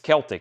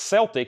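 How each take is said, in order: First: The word begins with a k sound. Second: The word begins with an s sound. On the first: It refers to anything other than the basketball team. "everywhere else it's Celtic" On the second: It refers to the basketball team. "the only way it's pronounced Celtic if literally the Boston Celtics"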